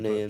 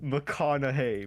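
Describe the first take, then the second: First: The middle is said like 'cock' with no vowel after. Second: The middle is said like 'con' with a vowel after. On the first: The speaker calls it wrong. "I thought it was McCockney" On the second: The speaker calls it right. "it's actually McConaughey"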